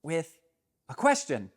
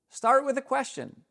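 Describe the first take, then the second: First: Said in the usual way. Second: "Start" punched much higher and louder; emphatic repeat. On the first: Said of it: "simply start with a question". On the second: Shown as a demonstration. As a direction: hammer the point home on "Start".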